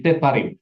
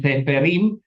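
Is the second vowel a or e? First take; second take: a; e. First: The second syllable has an a vowel. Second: The second syllable has an e vowel. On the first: The speaker calls it right. "tapi sefarim" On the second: The speaker calls it wrong. "bukan seferim"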